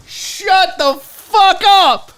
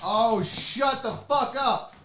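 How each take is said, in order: First: High, loud, drawn-out amazement; loud disbelief. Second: Slow, softer amazed reaction; hushed disbelief. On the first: Unboxer reacting to a gift, loud disbelief. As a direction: belt it out slowly in delighted shock. Repeats it louder on seeing gift. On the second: Unboxer first seeing a gift, hushed disbelief. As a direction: draw it out softly in disbelief. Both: Real, not acted.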